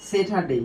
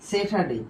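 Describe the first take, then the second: No difference in how they are said.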